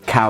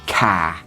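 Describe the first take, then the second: First: It is said in a neutral accent. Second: It is said in an East London accent.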